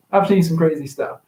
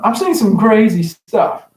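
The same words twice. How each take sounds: First: Said in the usual way. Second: Louder, leaning hard on seen; emphatic. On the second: Real, not acted. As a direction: punch seen some crazy stuff, higher and louder. Repeated line, first emphatic.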